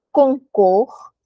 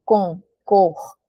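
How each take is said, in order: First: Said in the usual way. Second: "com, cor" with a clear gap between; split into two parts. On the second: Shown as a demonstration. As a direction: say "com" and "cor" as separate pieces. Splits prefix from root.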